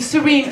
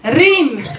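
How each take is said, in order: First: The name is said plainly, without lisp or trill. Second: The name is said with a lisp and trill. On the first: "I have a beautiful Arabic name" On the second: "put a lisp and a rolling R in my name"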